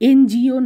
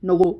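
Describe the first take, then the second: First: It is spelled out as separate letters. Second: It is said as a single word.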